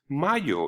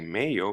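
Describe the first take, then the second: First: The first vowel sounds like open 'ah'. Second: The first vowel sounds like English 'ay'. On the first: The speaker calls it right. "the A is pronounced A, like avocado" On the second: The speaker calls it wrong. "we will never say mayo"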